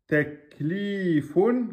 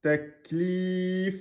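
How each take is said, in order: First: "Teklifun" slow and high, long li, ending in fun; full form with ending. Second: "teklif" with a long high li, stopped on f; pausal form. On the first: Teacher contrasting with the pause, full ending pronounced. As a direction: sound the final un of "Teklifun". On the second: Teacher showing how to stop on the word, final vowel dropped. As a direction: drop the un ending, close "teklif" on a bare f. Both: Shown as a demonstration. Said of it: "à l'arrêt, devient".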